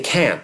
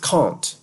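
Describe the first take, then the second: First: It is said with a Canadian English accent. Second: It is said with a London English accent. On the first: This is the unusual, marked form locally. "I say can't because that's how it's said in Canada" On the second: This is the usual, unmarked form locally. "the most common pronunciation you'd hear around is can't"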